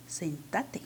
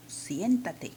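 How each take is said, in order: First: "sentate" stressed on the middle syllable, TA; Argentine "sentate". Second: "siéntate" stressed on the first syllable, SIÉN; Peruvian "siéntate". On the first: Teacher showing Argentina's form, "sentate" stressed on TA. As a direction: lower pitch, "sentate" as sen-TA-te with no ie glide. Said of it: "Y en Argentina dicen". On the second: Teacher showing Peru's form, "siéntate" stressed on SIÉN. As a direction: hit "sién" in "siéntate", with the ie glide. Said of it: "yo digo en Perú". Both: Shown as a demonstration.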